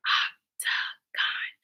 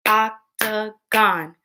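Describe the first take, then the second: First: Hushed, voiceless octagon, syllable by syllable; whispered octagon. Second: Voiced octagon in three slow beats; octagon split into syllables. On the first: Teacher asking pupils to whisper with her, whispered octagon. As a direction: whisper octagon in three slow beats. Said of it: "Whisper with me". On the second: Teacher stomping along with pupils, octagon split in three. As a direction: separate every syllable of octagon evenly. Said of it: "Break words into parts". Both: Shown as a demonstration.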